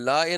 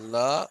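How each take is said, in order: First: The word ends with an added e sound. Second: The word ends on a plain a sound. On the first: The speaker calls it wrong. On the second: The speaker calls it right.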